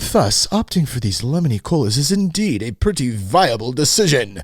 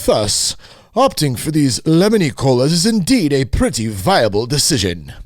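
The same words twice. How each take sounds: First: It is read in a plain, ordinary voice. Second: It is read in a put-on, lofty intellectual voice.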